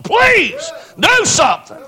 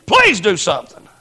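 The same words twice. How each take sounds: First: High, drawn-out desperate cry to God; pleading cry. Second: Said in the usual way. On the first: Retold or imitated. Preacher retelling how he begged God, crying out. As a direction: stretch the words out and beg. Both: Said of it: "I was begging God to do something".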